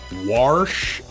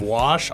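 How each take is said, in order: First: An r sound comes before the sh. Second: No r sound comes before the sh. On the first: The speaker calls it wrong. "When people say warsh" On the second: The speaker calls it right. "instead of wash"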